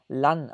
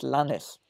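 First: The final s is silent. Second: The final s is pronounced. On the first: The speaker calls it right. "man spricht seinen Nachnamen Lan aus ... Also stummes ES" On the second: The speaker calls it wrong. "und nicht Lannes. Es ist nicht wie Johannes"

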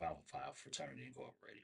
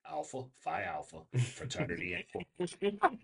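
First: The name is said quickly, words run together. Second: The name is said slowly, words kept apart. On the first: The speaker calls it wrong. "Sometimes I speak a little bit too quick" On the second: The speaker calls it right. "I need to say that slower"

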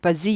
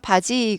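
First: It has a buzzing z sound. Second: It has a plain Korean j sound. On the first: The speaker calls it wrong. "한국말 발음을 이렇게 하면 이상해요" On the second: The speaker calls it right. "바지 그래야 되는데"

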